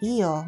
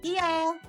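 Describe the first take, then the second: First: It sounds like a polite refusal. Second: It sounds like a willing, agreeable yes. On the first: No thanks, I'm fine. "That feels like no thanks or I'm fine" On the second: Go ahead, that's fine. "Sure, go ahead"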